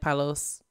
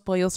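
First: The first vowel sounds like 'ah'. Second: The first vowel sounds like 'oh'. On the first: The speaker calls it wrong. "she's going to pronounce it like palos" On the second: The speaker calls it right. "We know it's Los Pollos Hermanos"

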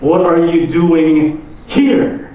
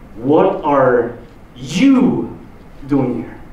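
First: The stress is on the word here. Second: The stress is on the word you.

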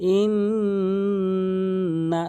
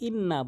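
First: The doubled n is held through the nose. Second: The doubled n is short, without nasal hold. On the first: The speaker calls it right. "তার নাকের ভিতর নিতে হবে" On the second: The speaker calls it wrong. "এখানে যেই ভুলটি আমরা করে থাকি ইন্না বলি, এখানে ওয়াজিব গুন্না করি না"

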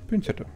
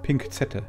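First: No k sound follows the first syllable. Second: A k sound follows the first syllable. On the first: This is the usual form of the word. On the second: This is how the word used to be said.

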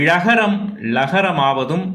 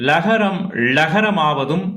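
The two takes are said the same way.

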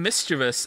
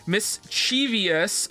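First: The word is said with three syllables. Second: The word has an extra syllable, four in total. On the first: "rather than mischievous" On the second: "add a whole new syllable to mischievous, turning it into mischievous"

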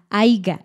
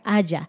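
First: The word is said with a g sound. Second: The word is said without a g sound. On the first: The speaker calls it wrong. "a veces dicen aiga, H A I G A" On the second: The speaker calls it right. "En subjuntivo es haya, con Y"

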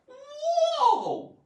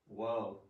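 First: It is said with strong excitement. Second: It is said flatly, without excitement.

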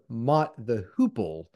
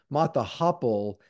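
First: The last word has a long 'oo' vowel. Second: The last word has a short 'o' vowel. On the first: The speaker calls it right. "instead of Mott the Hoople" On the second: The speaker calls it wrong. "you kept saying Mott the Hopple"

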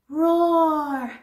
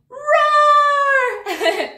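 First: It is said quietly. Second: It is said loudly.

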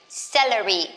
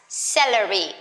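No difference in how they are said.

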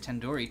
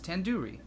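First: The middle syllable sounds like 'door'. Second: The middle syllable sounds like 'do'. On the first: The speaker calls it wrong. "You're saying it wrong" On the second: The speaker calls it right. "The do isn't like indoor. It's like doo-doo head"

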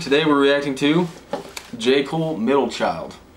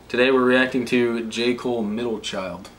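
First: It is said with more excitement. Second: It is said flatly, without excitement.

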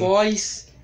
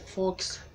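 First: The name ends with a plain s sound. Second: The name ends with a ks sound. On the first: This is how most people say the name. The speaker calls it wrong. "Todo mundo fala Foz" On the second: This is the correct way to say the name. The speaker calls it right. "Mas é Fox, coloca na cabeça de vocês"

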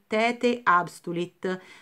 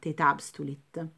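First: The final E of tete is pronounced separately. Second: The final E of tete merges into the A. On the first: The speaker calls it wrong. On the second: The speaker calls it right.

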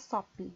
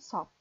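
First: The final p is audibly released. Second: The lips close on p without releasing it. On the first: The speaker calls it wrong. "Você não vai fazer sop, não é sop" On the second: The speaker calls it right. "Você só fecha a boca quando acabar o O"

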